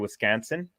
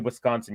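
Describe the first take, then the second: First: It is said in a local Wisconsin accent. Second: It is said in a standard accent. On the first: "you say Wisconsin. It's like Canson kind of" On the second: "you don't say Wisconsin"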